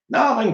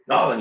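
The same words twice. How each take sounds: First: It is shouted in a normal-pitched voice. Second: It is said in a deeper voice.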